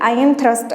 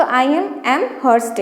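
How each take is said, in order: First: Said in the usual way. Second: "I am, am hurst" stretched out very slowly, syllable by syllable; slow mnemonic. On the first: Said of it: "ऐसे याद कर लीजिए बस". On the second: Shown as a demonstration. Teacher spells out the Amherst mnemonic for students, very slowly. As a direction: drag out "am hurst" so it sounds like Amherst. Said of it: "याद करेंगे".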